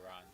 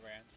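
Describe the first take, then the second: First: The name ends with a plain n sound. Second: The name ends with an n-d sound. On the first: The speaker calls it right. "Or Ron, as we say" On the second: The speaker calls it wrong. "I always pronounce it Rand. I know that's wrong"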